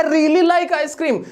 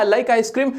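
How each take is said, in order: First: "really" drawn out slowly and raised; stress on really. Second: Said in the usual way. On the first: Shown as a demonstration. Teacher playing someone crazy about ice cream. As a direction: gush over "really" like a fan. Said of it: "ये दीवाना ice cream के लिए". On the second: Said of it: "normal सी बात थी".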